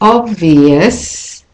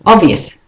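First: The stressed vowel is stretched out longer. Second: The stressed vowel is kept short. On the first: "I make the vowels in the stressed word slightly longer" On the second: "rather than"

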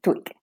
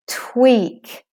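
First: The final k is short with little air. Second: The final k has a strong puff of air. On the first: The speaker calls it wrong. "otherwise it becomes short, tweak, and it isn't tweak" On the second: The speaker calls it right. "make your k with lots of air"

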